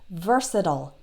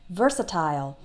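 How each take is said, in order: First: The last syllable sounds like 'ol'. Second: The last syllable sounds like 'isle'. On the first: "American English speakers... that last part sounds like ol" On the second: "British English speakers... they will pronounce like isle"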